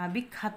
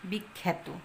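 First: The second vowel sounds like a. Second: The second vowel sounds like e. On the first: The speaker calls it wrong. "বিখ্যাত বলি না, বলা সঠিক হবে না" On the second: The speaker calls it right. "শুদ্ধ উচ্চারণ হবে বিখ্যাত"

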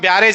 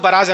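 First: The word is said as 'byarej'. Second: The word is said as 'baraj'. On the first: The speaker calls it wrong. "మనం తెలుగులో wrong pronunciation చేస్తాం, బ్యారేజ్ అని పిలుస్తాం" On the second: The speaker calls it right. "బరాజ్ అని పిలవాలి"

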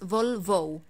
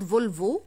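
First: The last vowel is a glided 'oh' sound as in 'go'. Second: The last vowel is a short, pure 'o' sound. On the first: The speaker calls it right. "it's Volvo" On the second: The speaker calls it wrong. "it's not Volvo"

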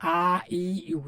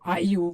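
First: The vowels are drawn out long. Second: The vowels are said short and quick. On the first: The speaker calls it wrong. "যদি এভাবে বলেন তাহলে হবে না" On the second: The speaker calls it right. "হরকতের উচ্চারণ তাড়াতাড়ি পড়তে হয়।"

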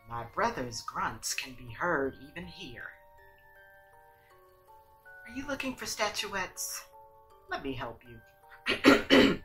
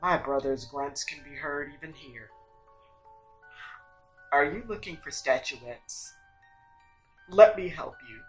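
First: It is said in a less masculine voice. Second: It is said in a more masculine voice.

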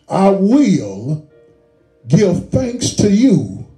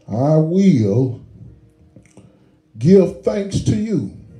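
First: It is read with power and conviction. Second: It is read plainly, without added force.

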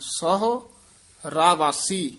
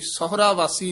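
First: The break comes right after the syllable 'sahu'. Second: The break comes after the syllables 'sahura'. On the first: The speaker calls it right. "ਸਹੁ ਇੱਥੇ ਰੁਕ ਕੇ ਬੋਲਣਾ। ... ਰਾਵਾਸੀ ਇਕੱਠਾ ਬੋਲ ਦੇਣਾ।" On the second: The speaker calls it wrong. "ਇਹ ਸਹੁਰਾ ਵਾਸੀ ਨਹੀਂ ਕਹਿਣਾ"

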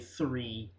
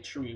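First: It starts with a th sound. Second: It starts with a plain t sound. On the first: "we don't say three or whatever the Americans do" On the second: "We say tree"

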